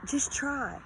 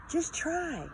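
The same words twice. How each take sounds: First: Said in the usual way. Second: Pleading repeat. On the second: Shown as a demonstration. Encouraging viewers who doubt themselves, high pleading repeat. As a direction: lift "Just try" high as a plea.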